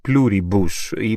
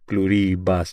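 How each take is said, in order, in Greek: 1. Ο τόνος δεν είναι στη δεύτερη συλλαβή. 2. Ο τόνος είναι στη δεύτερη συλλαβή. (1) "οι Αμερικανό αυτοί το λένε Pluribus" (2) "με τον τόνο στο ρι"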